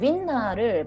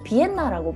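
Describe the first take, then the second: First: The word begins with a W sound. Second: The word begins with a B sound. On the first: This is how it is said in Japan. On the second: This is how it is said in Korea. "한국에서는 이제 윈나를 비엔나라고 발음하거든요"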